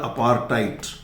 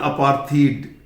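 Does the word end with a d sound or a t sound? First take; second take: t sound; d sound. First: It has a plain t and ends in t. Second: It has a breathy th and ends in d. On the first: The speaker calls it right. "एच जो है ना ये silent है, और ये डी का pronunciation ट है" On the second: The speaker calls it wrong. "कुछ लोग बोलते हैं अपार्थीड। अपार्थीड नहीं है"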